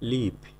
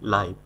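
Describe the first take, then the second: First: The vowel is short, as in give. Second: The vowel is long, as in five. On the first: It means to reside somewhere. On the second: It means happening directly, in real time.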